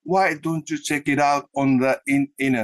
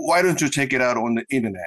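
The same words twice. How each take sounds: First: "Why don't you check it out" slowly in katakana syllables, "chekira"; slow, syllable by syllable, "internet" as "inenet"; katakana reading. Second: "Why don't you check it out on the internet" run together with linked words; quick, connected English phrase, t's softened or dropped; English-like linking. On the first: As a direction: spell out the linked English in slow Japanese sounds. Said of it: "もう普通カタカナで書けるんですよね". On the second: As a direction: link "check it out" as "chekiraut", "internet" as "innenet". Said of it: "それだと英語っぽいんですけども". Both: Shown as a demonstration.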